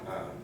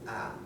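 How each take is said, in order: First: The vowel is said with the mouth nearly closed. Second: The vowel is said with the mouth wide open. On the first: The speaker calls it wrong. "This is not ah" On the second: The speaker calls it right. "This is ah. So open your mouth"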